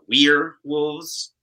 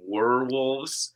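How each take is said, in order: First: The first part sounds like 'weer', as in we're. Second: The first part sounds like 'wur', as in werewolf. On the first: The speaker calls it right. "which is the actual pronunciation" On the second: The speaker calls it wrong. "some people say werewolves"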